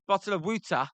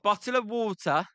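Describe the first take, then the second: First: Philly accent, "water" said as "wooder"; mild Philly accent demo. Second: Said in the usual way. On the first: Shown as a demonstration. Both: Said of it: "That's how we say it in Philly".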